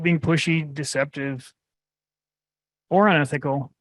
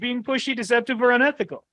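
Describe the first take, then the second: First: It is read in a flat, monotone voice. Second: It is read in an exaggerated, overexcited voice. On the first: "Diary of mo- monotone. Yeah. So like that's not very engaging" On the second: "we can use a different tonality ... Bad radio commercial, hysterical"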